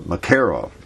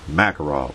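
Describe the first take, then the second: First: The stress is on the second syllable. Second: The stress is not on the second syllable. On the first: "The accent's on the second syllable" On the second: "to most people, it's a Makarov"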